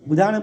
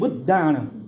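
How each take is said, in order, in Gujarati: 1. 'dh' અવાજ ટૂંકો અને એકલો છે. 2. 'dh' અવાજ લાંબો અને બેવડો છે. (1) "બુદ્ધાણમ પણ નહીં" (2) "ધ ડબલ છે"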